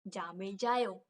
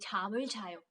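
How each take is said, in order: First: The phrase begins with a soft 'j' sound. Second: The phrase begins with a 'ch' sound. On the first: The speaker calls it wrong. "That's that's that's just wrong" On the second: The speaker calls it right. "You have to say chamil jayo"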